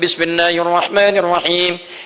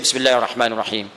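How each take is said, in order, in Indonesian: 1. Frasa itu dibaca keras dan jelas. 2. Frasa itu dibaca pelan, hampir seperti berbisik. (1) "memilih dikeraskan" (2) "ambil yang sir"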